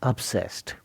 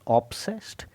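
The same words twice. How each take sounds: First: The first vowel is a reduced 'uh' sound. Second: The first vowel is a full 'o' sound. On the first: The speaker calls it right. "but it's obsessed. Start pronouncing the word starting with a U" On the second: The speaker calls it wrong. "it's not pronounced as"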